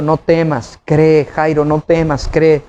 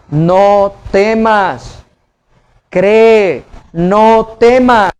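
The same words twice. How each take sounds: First: Calm reassurance. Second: NO TEMAS stretched out long and slow; emphatic exhortation. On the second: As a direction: draw out each word of "no temas, cree" emphatically. Preacher passes on the Lord's exhortation. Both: Retold or imitated.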